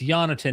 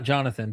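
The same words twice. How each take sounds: First: The name begins with a Y sound. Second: The name begins with a J sound. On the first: The speaker calls it right. "It's Jonathan, ... but Y Adler" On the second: The speaker calls it wrong. "not Jonathan"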